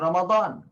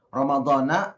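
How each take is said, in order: First: The word ends with no final vowel. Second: The word ends with an 'a' vowel. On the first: "kita tidak memberi harokat" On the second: "ada yang mempermasalahkan tentang harokat atau baris"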